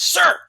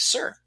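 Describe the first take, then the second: First: It is said as a yell. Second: It is said softly, at normal volume.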